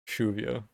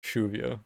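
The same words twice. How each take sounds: First: The double L has a harsh sh sound. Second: The same.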